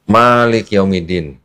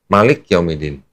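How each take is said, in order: First: The first vowel of Malik is drawn out long. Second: The first vowel of Malik is quick and short. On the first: "ma-nya agak panjang" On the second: "bacanya cepet"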